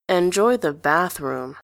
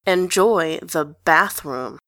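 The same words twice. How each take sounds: First: Slowly. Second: Drawn-out "Enjoy the bathroom"; slow teasing repeat. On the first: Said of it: "slowly this time". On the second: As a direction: stretch each word to tease him. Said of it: "Grantaire says again". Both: A narrator's reading.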